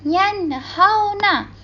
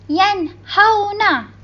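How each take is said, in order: No difference in how they are said.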